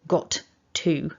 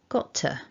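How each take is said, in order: First: Both t sounds are clipped and clearly separate. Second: The t sounds merge into one weak link. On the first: It sounds very formal. The speaker calls it wrong. "clip it" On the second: It sounds like ordinary connected speech. The speaker calls it right. "got to can weaken off"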